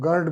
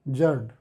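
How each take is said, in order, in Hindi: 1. यह शब्द hard G ध्वनि से शुरू होता है। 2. यह शब्द J ध्वनि से शुरू होता है।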